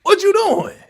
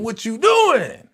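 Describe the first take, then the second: First: Much higher, louder outcry; high shocked yelp at the screen; shocked yell. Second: Said in the usual way. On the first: Real, not acted.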